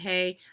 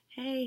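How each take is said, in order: First: It is said in a harsh, aggressive tone. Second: It is said in a light, friendly tone.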